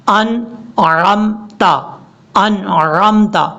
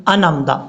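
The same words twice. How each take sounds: First: Slow 'انعمتا' with throaty ع; correct clear ain. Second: 'انعمتا' as smooth anamta; hurried wrong recitation. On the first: Teacher shows the right pronunciation, slow recitation. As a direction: split 'انعمتا' and squeeze the middle. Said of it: "اس کا ٹھیک تلفظ یہ ہے". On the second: Teacher shows hasty readers, hurried recitation. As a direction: rush 'انعمتا' without the throat sound. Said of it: "پڑھتے ہیں جلدی میں". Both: Shown as a demonstration.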